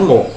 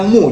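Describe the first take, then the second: First: The vowel is an o sound. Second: The vowel is a rounded u sound. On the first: The speaker calls it wrong. "jangan mo" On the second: The speaker calls it right. "harus dibaca mu"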